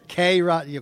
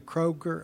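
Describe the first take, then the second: First: It is said as a letter plus Rogers. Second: It is said as a single two-syllable word.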